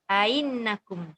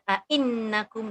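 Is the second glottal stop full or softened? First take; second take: softened; full. First: The second glottal stop is softened and glided. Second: Both glottal stops are fully pronounced. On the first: It follows another reading tradition. "dia akan tashilkan hamzah yang kedua" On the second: It follows the usual reading tradition. "dua-dua hamzah"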